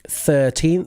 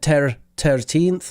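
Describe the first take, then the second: First: The word begins with a th sound. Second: The word begins with a plain t sound. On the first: The speaker calls it right. "make sure that you're hitting that th at the start" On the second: The speaker calls it wrong. "you used the Irish pronunciation"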